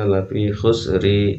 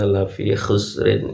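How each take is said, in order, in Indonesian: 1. Kata terakhir berakhir dengan vokal. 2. Kata terakhir berakhir dengan bunyi n.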